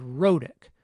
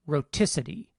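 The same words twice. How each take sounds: First: "rhotic" with a quick tap for its t; tapped t. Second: "rhoticity" stressed on the second syllable with a crisp t; true t, no tap. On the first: Lecturer showing students the tap in this word, tapped t in "rhotic". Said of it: "medial consonant sound is a tap". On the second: Lecturer showing what stress shift does, "rhoticity" with a true t. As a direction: say "rhoticity" as ro-TI-ci-ty, t fully released. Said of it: "it doesn't become a tap anymore". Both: Shown as a demonstration.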